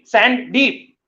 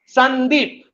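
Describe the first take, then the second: First: It is said as two separate words. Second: It is said as one smooth word. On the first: The sand is very deep. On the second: It is the character's name.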